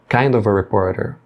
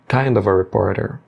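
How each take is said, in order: The two takes are said the same way.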